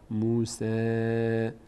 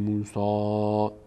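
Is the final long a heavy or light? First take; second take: light; heavy. First: The final long a sounds light and thin. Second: The final long a sounds heavy and full. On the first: The speaker calls it right. "پرخونده نمیشه" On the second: The speaker calls it wrong. "نمیگیم موسا"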